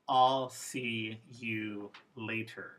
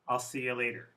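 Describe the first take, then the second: First: The word you is said fully and clearly. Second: The word you is reduced to a schwa. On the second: "Informal. A schwa appeared in the you"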